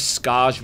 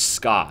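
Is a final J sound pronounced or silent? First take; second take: pronounced; silent. First: The word ends with a sounded J. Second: The word ends without any J sound. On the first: The speaker calls it wrong. "I have always pronounced this as Scars with a J" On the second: The speaker calls it right. "the J is silent. So as far as I know, the correct way to say it is Scar"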